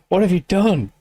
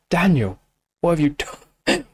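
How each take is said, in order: First: Delighted laughing repeat of the question; laughing disbelief. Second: A slightly hushed, stunned question; awed, hushed first reaction; stunned murmur. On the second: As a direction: say it like it just floored you. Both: Real, not acted.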